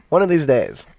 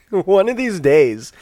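First: Said in the usual way. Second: Laughing, slow and high. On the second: Real, not acted. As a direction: laugh at your own slip. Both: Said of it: "I'm not gonna confuse runes and ruins".

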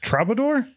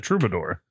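First: "troubadour" with an ah in the first syllable; queried pronunciation. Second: "troubadour" with an oo in the first syllable; variant pronunciation. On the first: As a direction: say "troubadour" as TRAH-buh-dor. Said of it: "is it pronounced troubadour?". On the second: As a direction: say "troubadour" as TROO-buh-dor. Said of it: "I've always pronounced it troubadour". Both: Shown as a demonstration.

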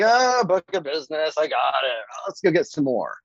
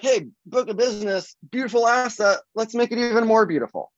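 First: Offhand mock complacency, sighing "ah" then moving on; lightly acted ho-hum dismissal; taking it for granted. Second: Higher-pitched, lightly acted delight; upbeat mock self-talk, pitched up throughout; appreciative. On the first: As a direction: toss it off as nothing special. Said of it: "take that for granted". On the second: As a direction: relish it like a prized asset. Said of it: "Or you can be like".

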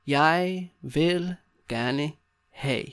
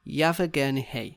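First: Very slow, long gaps between words. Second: Said in the usual way. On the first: Shown as a demonstration. Teacher showing learners how to order, word by word. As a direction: spell out the phrase slowly.

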